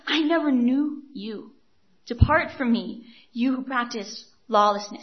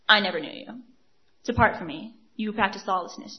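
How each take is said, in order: First: It is said in a sad, reluctant tone. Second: It is said in a harsh, rejecting tone. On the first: The speaker does not want to send them away. The speaker calls it right. "He doesn't want to send them away" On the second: The speaker is eager to send them away. The speaker calls it wrong. "the tone here is not"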